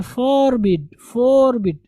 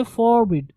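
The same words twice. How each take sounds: First: फॉरबिड with a drawn-out first syllable; mispronounced FORBID. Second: फॉरबिड with a short first syllable; correct FORBID. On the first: Teacher quoting learners' wrong reading, फॉरबिड with long drawn first syllable. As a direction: stretch the "fooor" in फॉरबिड. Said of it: "जो कि गलत है". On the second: Teacher correcting the class, फॉरबिड with little time on "for". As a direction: keep the "for" in फॉरबिड brief. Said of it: "थोड़ा सा पढ़ेंगे". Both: Shown as a demonstration.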